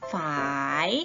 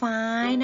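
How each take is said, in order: First: The tone dips and rises at the end. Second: The tone is high and level. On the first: "เสียงจัตวาคือ" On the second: "เสียงตรี"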